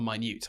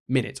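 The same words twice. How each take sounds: First: The stress is on the second syllable. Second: The stress is on the first syllable. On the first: Very small. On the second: A unit of time.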